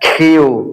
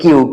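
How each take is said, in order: First: The k has a strong puff of air. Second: The k is plain, without a puff of air. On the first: The speaker calls it right. "It would be খিউ" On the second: The speaker calls it wrong. "আমরা বলি কিউ"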